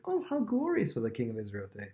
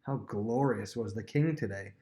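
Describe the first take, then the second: First: Sincere-sounding gush, put on as a contrast; mock admiring. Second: Slow, drawn-out mock praise; sarcastic. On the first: Shown as a demonstration. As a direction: lightly imitate wide-eyed admiration. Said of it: "She's not being like". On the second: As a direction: imitate a scornful wife, dragging out the compliment. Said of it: "She's saying it sarcastically".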